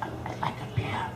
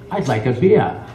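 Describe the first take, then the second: First: It is said in a quiet whisper. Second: It is said louder, in full voice.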